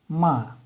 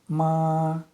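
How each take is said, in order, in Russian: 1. Тон резко падает с высокого уровня. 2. Тон держится высоким и ровным. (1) "нисходящий тон" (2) "прямой тон"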